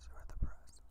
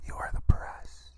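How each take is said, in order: First: Softer voiceless whisper, fading out. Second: Slow, louder voiceless whisper stressing the; loud stage whisper. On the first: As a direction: let the repeated phrase sink into a quiet whisper. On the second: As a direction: hammer the point home in a harsh whisper. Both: Acted. Repeating the point to media.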